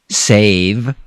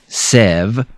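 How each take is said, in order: First: The vowel is a long A sound. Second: The vowel is a short E sound. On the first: The speaker calls it right. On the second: The speaker calls it wrong.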